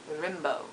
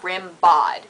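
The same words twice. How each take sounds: First: Rimbaud said "ram-bo", silent d; French pronunciation. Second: Rimbaud said "rim-bod"; mistaken pronunciation. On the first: Explaining the French name, Rimbaud as "rim-bo". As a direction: end Rimbaud on a soft "bo". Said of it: "He's French, so it's". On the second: Correcting what everyone thinks, Rimbaud as "rim-bod". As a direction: sound the final d in Rimbaud. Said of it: "That's what everyone thinks". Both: Shown as a demonstration.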